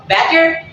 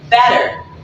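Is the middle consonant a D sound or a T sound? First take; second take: T sound; D sound. First: The middle consonant is a clear T sound. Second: The middle consonant is a soft D sound.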